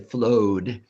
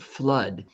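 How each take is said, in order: First: The vowel is a long 'oh' sound. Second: The vowel is a short 'uh' sound. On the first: The speaker calls it wrong. "I didn't say flowed" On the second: The speaker calls it right. "I said flood"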